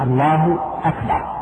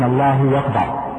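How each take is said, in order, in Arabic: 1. تبدأ Akbar بالهمزة. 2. تبدأ Akbar بصوت w. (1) "فإن المعنى الصحيح الله أكبر" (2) "فبعضهم يبدلون الهمزة واوا فيقولون"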